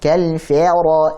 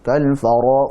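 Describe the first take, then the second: First: The f sound is overblown with too much air. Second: The f sound is slack and careless.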